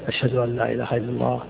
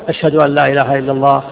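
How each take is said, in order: First: The phrase is said quietly, under the breath. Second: The phrase is said loudly, with a raised voice. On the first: It is said privately to oneself. "يقول مثلا في نفسه بينه وبين السر" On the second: It is proclaimed publicly to others. "ثم يرفع صوته ويقول"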